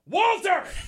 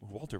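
First: The name is shouted loudly. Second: The name is said at normal volume. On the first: The speaker calls it right. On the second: The speaker calls it wrong.

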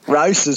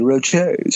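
First: It is said with a broad Australian accent. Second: It is said in a slightly posh way. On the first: "your best Aussie ocker version" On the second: "in a slightly posh way"

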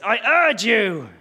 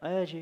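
First: 'Urge you' is said with strong emphasis. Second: 'Urge you' is said lightly, without emphasis.

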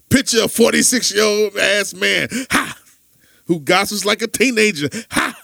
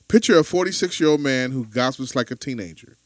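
First: It imitates his friend's way of talking. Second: It is read in his own plain voice.

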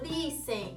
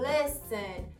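First: The first vowel is a long ee sound. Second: The first vowel is a short eh-like sound. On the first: The speaker calls it wrong. "a gente atribui o som da letra I como I" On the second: The speaker calls it right. "o som específico é um som mais de E"

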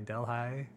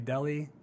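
First: The name is said the local Iowa way. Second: The name is said the widespread, common way. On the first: This is how locals in Iowa say it. "but we say Delhi here in Iowa" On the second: This is how most people elsewhere say it. "most of the world probably pronounce that a little differently. Maybe Delhi"

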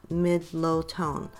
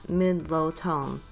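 No difference in how they are said.

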